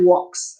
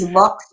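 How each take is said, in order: First: The word begins with a W sound. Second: The word begins with a V sound. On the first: This follows the classical Roman pronunciation. "or you could say vox" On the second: This follows the later Latin pronunciation. "I use V"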